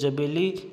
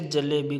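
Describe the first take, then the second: First: The second consonant is a b sound. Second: The second consonant is an l sound. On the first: The speaker calls it wrong. "ध्वनि विपर्य" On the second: The speaker calls it right. "जैसे जलेबी को"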